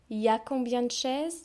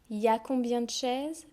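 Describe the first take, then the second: First: The word il is dropped. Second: The same.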